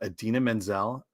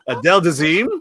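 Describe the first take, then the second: First: The name is said as Idina Menzel. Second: The name is said as Adele Dazeem. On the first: The speaker calls it right. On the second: The speaker calls it wrong.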